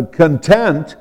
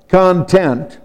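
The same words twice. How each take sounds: First: "content" with the second syllable stressed, con-TENT. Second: "content" with the first syllable stressed, CON-tent. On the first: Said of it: "put the emphasis on the second syllable". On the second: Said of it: "put the emphasis on the first syllable". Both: Shown as a demonstration.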